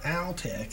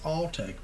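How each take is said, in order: First: The first syllable rhymes with pal. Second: The first syllable sounds like the word all. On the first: The speaker calls it wrong. "People say Altech. It's not Altech" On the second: The speaker calls it right. "It's Alltech because when they started the company, they were all techs"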